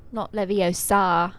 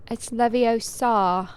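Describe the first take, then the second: First: Leviosa said slowly as le-vi-o-SAH, stress on the last syllable; slow, mocking Leviosa as le-vi-o-SAH; wrong Leviosa. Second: Leviosa said slowly as le-vi-OH-sa, stress on OH; slow, prim Leviosa as le-vi-OH-sa; correct Leviosa. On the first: Imitating the wrong version, scolding a friend: slow, mocking le-vi-o-SAH. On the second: Pretend. Playing Hermione, correcting a friend: prim, slow le-vi-OH-sa. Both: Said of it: "I'm Hermione".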